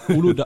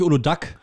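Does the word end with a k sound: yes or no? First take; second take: no; yes. First: The word ends on a vowel, without k. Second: The word ends with a k sound. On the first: The speaker calls it right. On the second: The speaker calls it wrong. "Es ist nicht Uludak"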